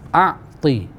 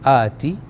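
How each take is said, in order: First: A throaty ain sound comes before the t. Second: The first vowel is long, straight into the t. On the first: "alif, ain, ta" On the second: "alif tu dibaca dengan panjang, ta tu baris bawah saja tanpa panjang"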